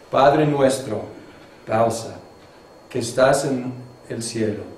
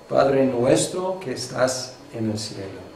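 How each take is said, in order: First: There is a pause after "nuestro". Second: It is said without a pause.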